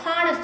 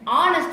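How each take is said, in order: First: The word starts with a clear h sound. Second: The word starts directly with a vowel sound. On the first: The speaker calls it wrong. "h உச்சரிக்க honest ன்னு சொல்லக்கூடாது" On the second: The speaker calls it right. "ப்ரொனவுன்ஸ் பண்ணும்போது honest ன்னு சொல்றோம்"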